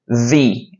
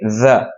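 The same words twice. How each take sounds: First: The vowel is a long 'ee' sound. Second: The vowel is a short, weak 'uh' sound. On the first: The next word begins with a vowel. "you're gonna use the pronunciation E" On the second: The next word begins with a consonant. "If the word begins with a consonant like book, car, table, food, you're gonna say the"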